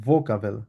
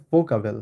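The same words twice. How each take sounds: First: ভোকাবেল lower, onset halfway between f and v. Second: ফোকাবেল with a hard f at the start; wrong f version. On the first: Teacher modelling the right German sound, in between. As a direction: soften the start of ভোকাবেল, neither f nor v. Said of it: "এটা মাঝামাঝি একটা ভোকাবেল". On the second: Teacher contrasting wrong and right for students, hard f. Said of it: "ফোকাবেল না বলে ভোকাবেল". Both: Shown as a demonstration.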